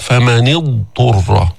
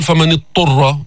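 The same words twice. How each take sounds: First: فمن اضطر slowly, the ض of اضطر held apart from the ط; اضطر بإظهار الضاد; clear dad. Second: فمن اضطر with the ض slurred into the ط; don't blend the ض of اضطر, the wrong way; ض أُدغمت في ط خطأً; wrong merged form. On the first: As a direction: sound out the ض distinctly before ط. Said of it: "فبدك تظهر الضاد". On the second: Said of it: "فحتى ما تقول". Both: Shown as a demonstration.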